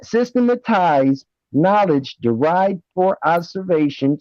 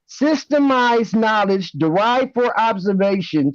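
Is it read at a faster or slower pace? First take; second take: slower; faster. First: It is read at a slower pace. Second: It is read at a faster pace.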